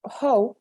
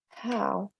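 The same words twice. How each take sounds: First: The vowel starts narrower, not wide open. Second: The vowel starts with a wide open ah. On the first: The speaker calls it wrong. "it's a bad word" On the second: The speaker calls it right. "That's the correct pronunciation"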